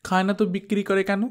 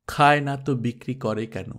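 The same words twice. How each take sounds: First: Put-on fast, high argumentative child; quick retort. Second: Said in the usual way. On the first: Daughter arguing with mother about the ice, fast and high. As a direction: fire the question back quickly, pitched up. Girl argues back.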